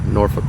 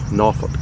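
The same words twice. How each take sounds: First: The first syllable sounds like nor, with an r. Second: The first syllable sounds like naw, without an r. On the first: "instead of a nor" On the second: "some of them even go kind of a naw"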